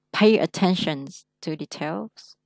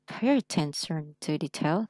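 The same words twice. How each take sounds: First: Said in the usual way. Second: Slow, every sound of "Pay attention to details" clear; careful slow reading. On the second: Shown as a demonstration. Teacher modelling careful slow reading for a student. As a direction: read it slowly and precisely. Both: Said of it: "Đọc phải đàng hoàng hết sức".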